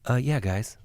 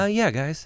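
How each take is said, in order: First: It is said in a deep voice. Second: It is said in a higher voice.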